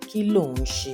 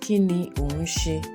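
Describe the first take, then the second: First: The words are run together into a contraction. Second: The words are said separately, in full form.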